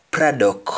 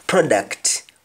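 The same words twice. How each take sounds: First: "product" said "pradok", T dropped; "product" without the final T; Jamaican pronunciation. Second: "Product" with final T; "Product" ending in a clear T; English pronunciation. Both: Shown as a demonstration. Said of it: "We don't pronounce the T when spoken in Jamaican".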